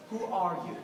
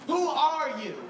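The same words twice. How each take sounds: First: Said in the usual way. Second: Who are you said again, higher and louder; louder, higher retake. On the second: Retold or imitated. Husband staring at his wife in bed, rising alarm. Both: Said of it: "you think to yourself".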